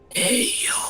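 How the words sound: It is said in a quiet whisper. "So I'll have to whisper it"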